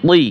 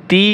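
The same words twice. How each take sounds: First: তি with a heavy, emphatic Arabic taw; similar-letter contrast. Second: তি with a thin, light Arabic ta; similar-letter contrast. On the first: Teacher drilling look-alike sounds, heavy emphatic তি. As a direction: thicken তি into a dark "twee". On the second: Teacher drilling look-alike sounds, light তি. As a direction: say তি as a plain light "tee". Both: Shown as a demonstration. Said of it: "একটা হরফের উচ্চারণ অন্য হরফের সাথে মিলে যায়".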